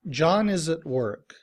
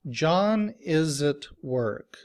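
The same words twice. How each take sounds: First: The sentence is said at a normal speed. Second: The sentence is said more slowly.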